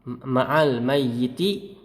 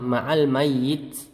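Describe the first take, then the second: First: The last word ends with a short vowel. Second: The last word ends on a bare t. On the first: "dengan harokat" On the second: "tanpa harokat"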